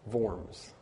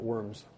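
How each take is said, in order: First: It begins with a v sound, German style. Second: It begins with a w sound, like English. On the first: The speaker calls it right. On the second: The speaker calls it wrong. "Not worms"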